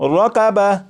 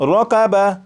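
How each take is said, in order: First: The word ends with a soft 'ah' sound. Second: The word ends with a soft 'ah' sound.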